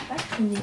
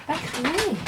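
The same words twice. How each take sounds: First: Said in the usual way. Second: Higher, sing-song "Pas crier" to the dog; high scolding. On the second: Real, not acted.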